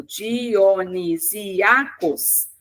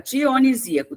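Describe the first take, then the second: First: "Dionisiacos" very slowly, split Di-o-ni-sí-a-cos; syllable by syllable. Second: Said in the usual way. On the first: Shown as a demonstration. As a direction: sound out each syllable of "Dionisiacos" separately. Teacher splits word into syllables. ("Dionisiacos" silabado bem devagar, sílaba por sílaba)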